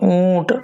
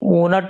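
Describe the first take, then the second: First: The vowel is nasalized with no full n. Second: The n is a full consonant before t. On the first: The speaker calls it right. "नून की आवाज नाक से आ रही है" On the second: The speaker calls it wrong. "ऊनट नहीं पड़ेगा"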